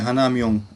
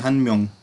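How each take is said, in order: First: The number is said in full as hana. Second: The number is shortened to han. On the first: The speaker calls it wrong. "उसको ऐसे नहीं पढ़ेंगे" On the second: The speaker calls it right. "उसको पढ़ेंगे"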